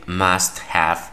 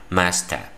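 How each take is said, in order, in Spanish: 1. Have se pronuncia completo, como una palabra separada. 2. Have se reduce y se une en una sola palabra. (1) "que eso es lo correcto" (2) "los nativos cuando contraen"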